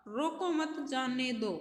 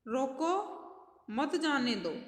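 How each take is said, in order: First: Said in the usual way. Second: रोको rising, a clear pause, then मत जाने दो; pause after रोको. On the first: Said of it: "इन दोनों वाक्यों को पढ़िए". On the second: Shown as a demonstration. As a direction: break firmly after रोको, keeping मत with जाने दो. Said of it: "विराम चिन्ह लग के".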